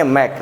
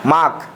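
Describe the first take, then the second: First: मैक with a front "ai" vowel; correct front vowel. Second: माक with an open long "aa"; wrong "aa" vowel. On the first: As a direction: say मैक like "make", not with "aa". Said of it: "ना कि". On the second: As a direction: misread it as माक, "maak". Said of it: "आ का उच्चारण कर देंगे". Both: Shown as a demonstration.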